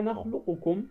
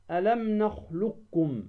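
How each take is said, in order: First: "نخلقكم" as nakhluqukum, q sounded with a vowel; original unmerged qaf. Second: "ألم نخلقكم" as nakhlukkum, doubled k; qaf merged into kaf. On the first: Teacher showing the underlying form, نخلقكم with full ق. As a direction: separate ق from ك in نخلقكم. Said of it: "هي نخلقكم". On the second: Teacher reciting the verse example, نخلقكم with ق merged. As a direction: let ق of نخلقكم become ك. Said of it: "أدغم القاف في الكاف". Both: Shown as a demonstration.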